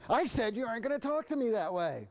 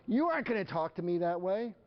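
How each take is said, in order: First: Very high, exasperated scolding; hammed-up parent losing control of the argument; escalating parental outrage. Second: High-pitched parental scolding; acted indignation, pitched up; indignant parent. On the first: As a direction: insist on it, voice pushed way up. Parent repeats scolding, quarrel escalates. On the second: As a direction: play a parent laying down the law. Parent scolds defiant child.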